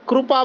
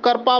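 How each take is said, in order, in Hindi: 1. यह शब्द kripa की तरह बोला जाता है, र के साथ संयुक्त व्यंजन। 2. यह शब्द karpa की तरह बोला जाता है, र से पहले स्वर। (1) "जैसे हम यहाँ महाराष्ट्र में कृपा बोलेंगे" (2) "तो वहां पे वो करपा बोलेंगे"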